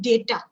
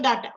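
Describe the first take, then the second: First: The first vowel sounds like 'ay'. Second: The first vowel sounds like 'ah'. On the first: "We we call it data" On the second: "it was like A says ah. So data"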